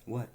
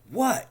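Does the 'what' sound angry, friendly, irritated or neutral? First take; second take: neutral; angry. First: It sounds plain and neutral. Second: It sounds sharp and angry. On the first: The speaker simply asks what is wanted. "Neither mean nor nice or whatever. Straightforward" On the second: The speaker resents being called upon. "Angry for being called upon"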